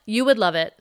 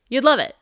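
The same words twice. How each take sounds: First: WOULD stressed, then falling. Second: LOVE punched high and loud; stress on LOVE. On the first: Host insisting to listeners about the Pura, stress on WOULD. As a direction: lean on the word WOULD. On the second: Host urging listeners to buy a Pura, stress on LOVE. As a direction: hit LOVE high, then fall. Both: Real, not acted.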